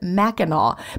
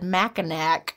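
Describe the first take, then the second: First: The name is said the local way. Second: The name is said the way an outsider would. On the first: The speaker calls it right. "she told me to pronounce it Mackinac" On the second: The speaker calls it wrong. "which I probably would have said Mackinac"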